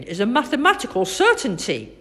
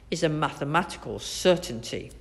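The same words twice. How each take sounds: First: Higher and louder, quick and proud; boy parroting the doctor. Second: Brisk and matter-of-fact, a touch fast; know-it-all doctor. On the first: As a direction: echo the doctor's phrase triumphantly. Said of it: "said Finn". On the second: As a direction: state it as settled fact. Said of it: "replied Doctor Gass". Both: A narrator's reading.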